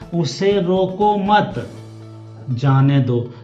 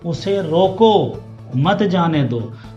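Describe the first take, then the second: First: The pause comes right after mat. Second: The pause comes right after roko.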